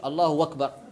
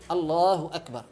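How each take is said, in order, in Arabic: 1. الكلمة الثانية تبدأ بصوت واو. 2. الكلمة الثانية تبدأ بهمزة. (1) "لا يجوز يبدل الآ بالواو، ما نقولش" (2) "أكدنا على أهمية النطق الصحيح"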